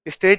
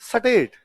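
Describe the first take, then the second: First: The word starts with a plain st cluster. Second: A vowel is inserted between s and t. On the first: "स्टेट नहीं" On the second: "स्टेट नहीं सटेट"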